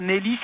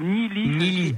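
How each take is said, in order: First: The first vowel sounds like 'eh'. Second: The first vowel sounds like 'ee'. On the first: The speaker calls it wrong. "c'est pas Nelly" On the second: The speaker calls it right. "c'est Nili"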